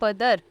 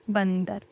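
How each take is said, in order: First: It is said without a nasal n sound. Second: It is said with a nasal n sound. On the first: The speaker calls it wrong. "बदर तो नहीं है ये" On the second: The speaker calls it right. "ये है बंदर"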